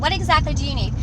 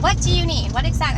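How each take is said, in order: First: Slightly less sharp, still high and raised; toned-down demand. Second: High, loud, exasperated demand; sharp demand. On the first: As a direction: ask pointedly, reining in the outburst a little. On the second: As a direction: blurt it out as a loud, pointed demand. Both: Retold or imitated. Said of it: "I didn't say it like that".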